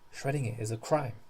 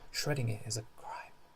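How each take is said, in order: First: The line is spoken aloud, not whispered. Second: The line is spoken in a whisper. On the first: "you don't whisper that line" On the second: "So I was doing"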